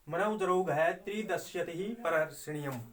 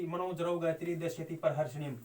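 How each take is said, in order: First: "मनौ जरौ घय" set apart by a brief pause, then "त्रिदश्यति ही परहर्षणीयम" runs straight on; read with the pause. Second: "मनो जरौ गायत्री दश्यति परहर्षणीम" run together in one breath, no break after "जरौ"; read without the pause. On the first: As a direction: stop briefly after "घय", then go straight through to the end. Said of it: "इस तरह से हम बोलेंगे". ("घय" के बाद यति, फिर सीधा अंत तक) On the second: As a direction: rush the whole line with no yati. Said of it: "ऐसे नहीं बोल सकते". (बिना यति के एक साँस में) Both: Shown as a demonstration.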